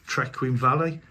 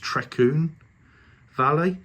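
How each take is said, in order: First: The name is said with an English pronunciation. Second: The name is said with a Welsh pronunciation. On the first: The speaker calls it wrong. "I've been pronouncing it wrong all the time" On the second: The speaker calls it right. "it's the Welsh pronunciation"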